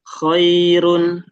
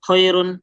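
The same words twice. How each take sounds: First: The first sound flows on for a while. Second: The first sound is cut off abruptly. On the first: The speaker calls it right. "tapi khairun" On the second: The speaker calls it wrong. "jangan langsung khairun"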